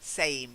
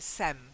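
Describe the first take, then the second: First: The vowel is a long A sound. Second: The vowel is a short E sound. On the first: The speaker calls it right. "Long A" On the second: The speaker calls it wrong. "Quite often you say it like, it's like sem"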